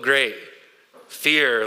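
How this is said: It is said in a dismayed, sarcastic tone. The fear is something bad and unwelcome. "It could be like, oh, great. Fear. Like, oh, no"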